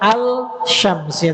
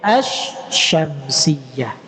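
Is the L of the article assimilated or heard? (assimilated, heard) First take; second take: heard; assimilated. First: The L sound is pronounced before the sh. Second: The L merges into a doubled sh sound. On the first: The speaker calls it wrong. "bukan al-syamsiyah" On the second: The speaker calls it right. "tapi asyamsiyah"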